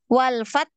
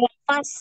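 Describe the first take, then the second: First: The word ends with a held, stopped t. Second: The word ends with a hissing s sound. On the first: The speaker calls it right. "tertahan tak" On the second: The speaker calls it wrong. "Jangan walfas ya"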